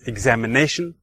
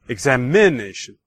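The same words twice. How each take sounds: First: The stress falls on the fourth syllable, 'na'. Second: The stress falls on the third syllable, 'i'.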